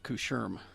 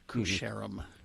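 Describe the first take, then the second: First: The name is mumbled and reduced. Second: The name is said fully and clearly. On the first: This is how the local people say it. "the locals pronounced it Coucherum ... they mumble it" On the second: This is how outsiders would say it. "instead of, you know, Coucherum"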